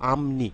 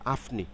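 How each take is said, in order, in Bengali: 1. 'ni'-এর আগের ধ্বনিটি m। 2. 'ni'-এর আগের ধ্বনিটি p। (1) "প পরিবর্তিত হয়ে ম হয়ে যাবে" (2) "নট আফনি"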